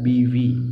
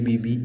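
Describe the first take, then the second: First: The second syllable starts with a v sound. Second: The second syllable starts with a b sound. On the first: The speaker calls it right. "शब्द होता है बीवी" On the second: The speaker calls it wrong. "बोलते हैं लोग बी बी बी बी, गलत है"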